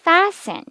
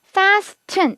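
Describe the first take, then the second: First: The T sound is silent. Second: The T sound is clearly pronounced. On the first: The speaker calls it right. "T 발음 묵음이에요" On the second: The speaker calls it wrong. "이러면 정말 큰일 나죠"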